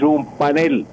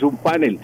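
First: "panel" stressed on the last syllable, pa-NEL; correct Spanish stress. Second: "panel" stressed on the first syllable, PA-nel; wrong stress. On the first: Professor admonishing announcers, "panel" stressed at the end. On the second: Professor showing announcers the error, "panel" stressed up front. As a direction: land on PA in "panel". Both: Shown as a demonstration. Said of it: "aprendan a pronunciar correctamente".

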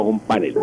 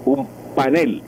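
First: "panel" as PA-nel; wrong stress. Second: "panel" as pa-NEL; correct Spanish stress. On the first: Professor closing with the form to avoid, "panel" stressed up front. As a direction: put the weight on PA in "panel". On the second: Professor summing up the right form, "panel" stressed at the end. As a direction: put the weight on NEL in "panel". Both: Shown as a demonstration. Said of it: "y no un panel".

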